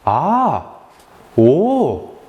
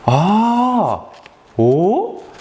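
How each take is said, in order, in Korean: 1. 따뜻하게, 진심으로 공감하며 말하고 있어요. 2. 따뜻하게, 진심으로 공감하며 말하고 있어요.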